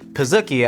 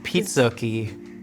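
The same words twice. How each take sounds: First: The first syllable does not sound like pizza. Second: The first syllable sounds like pizza. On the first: This is the official pronunciation. "They have officially said it is pronounced pizookie" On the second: It follows the word pizza. "why not pronounce it pizookie if it's pizza and cookie?"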